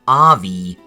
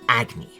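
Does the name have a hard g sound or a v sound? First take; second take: v sound; hard g. First: The name is said with a v sound. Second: The name is said with a hard g sound. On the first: The speaker calls it wrong. "I read the main character's name as Avi" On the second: The speaker calls it right. "rather than Agni"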